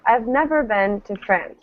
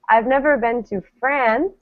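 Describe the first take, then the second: First: The stress is on never. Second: The stress is on France.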